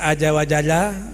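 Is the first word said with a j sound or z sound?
j sound. The first word is said with a j sound.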